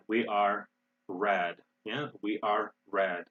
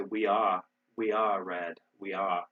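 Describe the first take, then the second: First: Are and red with clearly pronounced Rs; rhotic R. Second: Unsure British try, dropping the R in "are"; attempted British accent. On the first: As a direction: say "we are red" the American way, sounding the R in "are". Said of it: "rhotic is when we pronounce the R". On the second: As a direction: say it British, non-rhotic, not quite managing. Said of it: "In British English, they would say". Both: Shown as a demonstration.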